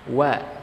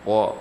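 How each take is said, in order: First: The vowel is thin and bright, lips spread. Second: The vowel is thick and rounded, mouth wide. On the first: The speaker calls it right. "tidak dengan cara membuka secara lebar mulutnya, tetapi dengan menarik ke bagian sisi kiri ataupun bagian kanannya" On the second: The speaker calls it wrong. "Pertama memang akan menjadi tebal"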